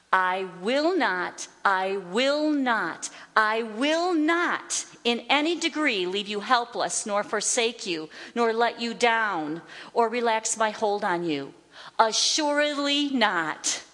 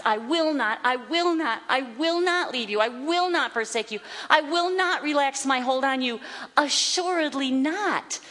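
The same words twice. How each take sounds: First: Slow, emphatic stress on "I will not". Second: Higher, driving repeats of "I will not"; emphatic. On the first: Teacher reading God's promise never to forsake you, emphatic. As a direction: stretch out each "I will not" and land firmly on "Assuredly not". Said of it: "God is so emphatic". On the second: Teacher showing why it is repeated three times, emphatic. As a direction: hammer each "I will not" in quick succession, then stretch "Assuredly not". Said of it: "it is so emphatic". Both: Acted.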